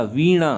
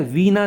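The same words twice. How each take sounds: First: वीणा as vee-ṇaa, tongue curled back; वीणा with णा at the end; correct retroflex n. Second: वीणा as vee-naa with dental n; वीणा with ना at the end; wrong dental n. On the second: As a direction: keep the tongue forward in वीणा. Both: Shown as a demonstration. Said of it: "नहीं होता".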